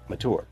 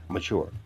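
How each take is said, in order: First: The middle consonant sounds like a plain 't'. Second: The middle consonant sounds like 'ch'. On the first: "But it's spelled M-A-T-U-R-E" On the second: "people spell the word M-A-C-H-U-E-R-E"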